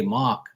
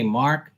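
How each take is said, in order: First: "Mark" with no R, like "Mahk"; dropped R. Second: Said in the usual way. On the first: Shown as a demonstration. Showing how locals say the name, "Mark" as "Mahk". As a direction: say "Mark" without sounding the R. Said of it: "they don't stress the R". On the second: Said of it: "see how you say Mark?".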